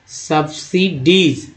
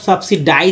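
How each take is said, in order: First: The last syllable is said as 'deez'. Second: The last syllable is said as 'dize'.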